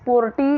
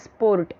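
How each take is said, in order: First: The r sound is left silent. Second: The r sound is clearly pronounced. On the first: The speaker calls it right. "आर यहाँ पे नहीं" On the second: The speaker calls it wrong. "जैसे कि बहुत लोग इसे कैसे बोलेंगे"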